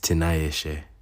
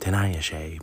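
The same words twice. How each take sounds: First: The name is said with Shona intonation. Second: The name is said with American intonation. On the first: The speaker calls it right. "but it's it's Tanayashe" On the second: The speaker calls it wrong. "I'm American and I get used to saying Tanayashe"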